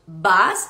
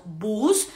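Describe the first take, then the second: First: Bus said as /bas/, U like an A; right U in bus. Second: Bus with a long U like Spanish bus, /bus/; wrong U in bus. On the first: Teacher shows the right way to say bus. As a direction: open A sound in bus. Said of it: "sino que diríamos bus". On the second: Teacher shows the wrong way to say bus. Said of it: "no diríamos bus". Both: Shown as a demonstration.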